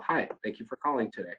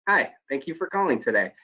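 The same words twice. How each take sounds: First: Said in the usual way. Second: Brighter, smiling call-center hello; friendly phone greeting with a smile. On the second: Shown as a demonstration. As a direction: let them hear the smile. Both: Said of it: "big difference in the two statements".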